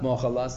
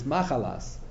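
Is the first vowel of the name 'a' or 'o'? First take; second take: o; a. First: The first vowel of the name is 'o'. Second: The first vowel of the name is 'a'. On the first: She was forgiven her sins. "the other pronunciation has it that it's not mochalas" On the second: The name carries no hint of forgiveness. "it's machalas"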